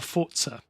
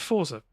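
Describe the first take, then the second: First: The word is said with a more foreign pronunciation. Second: The word is said with a plain English pronunciation. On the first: The speaker calls it right. "as I should be saying" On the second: The speaker calls it wrong. "I'm too common. I'm a common English guy"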